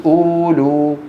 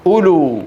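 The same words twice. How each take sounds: First: أولو with a stretched first vowel, uuu-luu; waw wrongly voiced. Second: أولو with short first u, u-luu; quick first syllable in أولو; silent waw. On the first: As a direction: drag out both vowels of أولو on a level note. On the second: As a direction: say أولو without lengthening the first vowel. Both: Shown as a demonstration. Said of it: "ما أحد يقول أولو".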